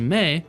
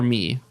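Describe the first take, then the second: First: The name is said with an 'ay' vowel. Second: The name is said with an 'ee' vowel. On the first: The speaker calls it right. "So I would say May" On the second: The speaker calls it wrong. "that doesn't sound right"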